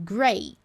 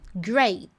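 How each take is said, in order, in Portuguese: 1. O T final é retido, sem explosão. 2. O T final é solto, com explosão. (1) "Posiciono, mas não explodo" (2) "Explodiu o T"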